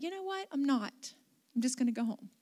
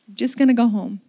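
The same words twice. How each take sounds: First: Softly retold private decision; quiet thought. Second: Louder, settled declaration; firm repeat. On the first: Pastor deciding to herself to skip shopping, quietly. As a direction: think it aloud, softly. Inner decision, then repeated aloud. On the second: Retold or imitated. Pastor restating her decision to head home, louder and firm. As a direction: repeat the decision out loud, firmly.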